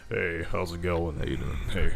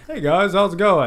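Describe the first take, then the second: First: Low, soft voice put on for strangers; imitated deep voice. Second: Said in the usual way. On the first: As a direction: drop deep to greet a stranger. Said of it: "a stranger's like". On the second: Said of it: "You just like".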